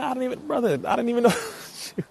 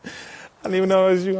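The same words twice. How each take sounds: First: High, laughing through the words; laughing surprise. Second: High, louder delighted exclaim; excited exclaim. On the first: Streamer realizing his brother is in chat, high laughing surprise. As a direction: laugh it out, caught off guard. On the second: Streamer repeating to his brother, louder delighted exclaim. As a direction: call it out to him, thrilled. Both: Real, not acted.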